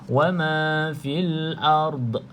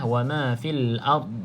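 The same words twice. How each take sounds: First: The final consonant is released with a bounce. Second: The final consonant is held without a bounce. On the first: The speaker calls it wrong. "Tak boleh baca ... itu lantunan, tak boleh" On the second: The speaker calls it right. "pastikan huruf dad tidak dilantunkan sebab bukan qalqalah. Maka baca dia macam tadilah"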